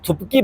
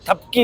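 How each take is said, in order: First: The first vowel sounds like 'u'. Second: The first vowel sounds like 'a'. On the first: The speaker calls it wrong. "मैं लफ्ज़ थुपकी बोला था" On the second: The speaker calls it right. "उन्होंने मुझे कहा कि थपकी होता है"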